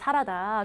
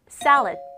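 First: The word ends with an added 'da' syllable. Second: The word ends with a light final 'd'. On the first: The speaker calls it wrong. "최악의 발음이 사라다죠" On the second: The speaker calls it right. "읽어볼게요"

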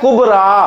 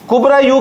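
First: The word ends on a long 'a' sound. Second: The word ends with an added 'u' syllable. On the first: This is the form Arabs commonly read. "रा पे खड़ी जबर डाल देता है कुबरा" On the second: This is the original full form. "उसकी असल मैंने आपको दिखा दी है, वो असल में था कुबरा यू"

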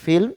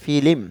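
First: The l and m are joined with no vowel. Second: An extra i vowel separates the l and m. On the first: "এখানে উচ্চারণটি হচ্ছে ফিল্ম" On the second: "কিন্তু এখানে হচ্ছে ফিলিম, অর্থাৎ ফি ল যোগ রস্যই"

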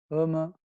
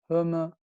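Both takes have the same delivery.

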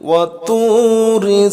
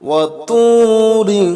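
No difference in how they are said.

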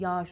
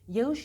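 First: The soft g drops and the vowel lengthens. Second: The soft g is sounded as written. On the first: "yağış okuruz" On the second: "Yağış yazarız"

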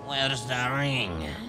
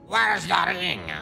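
First: It is said in a casual, unserious tone. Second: It is said in a forceful, absolute tone. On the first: "Not like that" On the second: "I need to be more absolute"

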